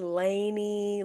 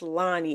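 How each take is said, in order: First: The first vowel sounds like 'ay' in day. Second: The first vowel sounds like 'ah' in father. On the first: The speaker calls it wrong. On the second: The speaker calls it right. "it's never just Lonnie"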